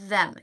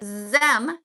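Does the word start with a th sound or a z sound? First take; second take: th sound; z sound. First: It starts with a th sound, tongue out. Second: It starts with a buzzing z sound. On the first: The speaker calls it right. "You see, my finger is wet" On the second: The speaker calls it wrong. "your finger will not be wet"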